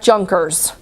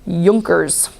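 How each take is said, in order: First: The word begins with a J sound. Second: The word begins with a Y sound. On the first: The speaker calls it wrong. "not Junkers" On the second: The speaker calls it right. "The J is pronounced as a Y sound"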